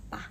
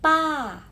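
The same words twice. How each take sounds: First: PA very short and soft; "pa" quick and weightless; light neutral tone. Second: PA loud, high and long; "Pa" strong and stretched; heavy full tone. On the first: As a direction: cut PA off as if braking. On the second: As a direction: put full weight on PA. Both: Shown as a demonstration. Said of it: "Porsinya berbeda".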